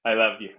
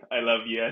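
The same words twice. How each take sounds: First: Said in the usual way. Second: Giggling through it; a laughing I love you. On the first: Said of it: "said for the camera". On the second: Shown as a demonstration. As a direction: say it while laughing. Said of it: "repeated through a laugh".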